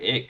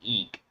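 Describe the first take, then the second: First: The vowel is short, as in 'kick'. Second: The vowel is long, as in 'seek'. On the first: The speaker calls it wrong. "I'm pronouncing it incorrectly" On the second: The speaker calls it right. "The correct pronunciation is Eek"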